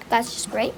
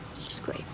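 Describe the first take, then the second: First: Softer, low sarcastic remark; resigned grumble. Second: Barely audible sarcastic mutter; resigned whisper. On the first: Locked out with wet socks, resigned grumble. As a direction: grumble it low but voiced. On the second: Locked out with wet socks, resigned whisper. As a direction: whisper it bitterly to yourself. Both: Real, not acted. Same words voiced, then whispered.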